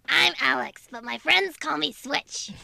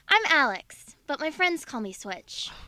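First: It is spoken in a goblin character's put-on voice. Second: It is spoken in a young girl's character voice. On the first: "Do it in the Bob Goblin voice" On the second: "Do the voice. Do it the way you said it"

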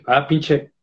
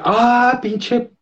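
First: It sounds hostile and aggressive. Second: It sounds friendly and positive.

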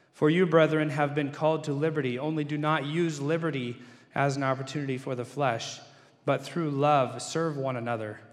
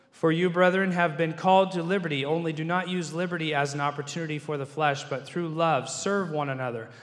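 Both takes have the same delivery.

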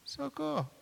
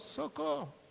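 The two takes are said the same way.

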